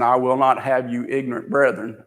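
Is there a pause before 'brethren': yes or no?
no. There is no pause before 'brethren'.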